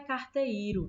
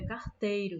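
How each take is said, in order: First: The vowels e and i are split apart. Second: The vowels e and i form one syllable. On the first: The speaker calls it wrong. "não é carteiro" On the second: The speaker calls it right. "é carteiro"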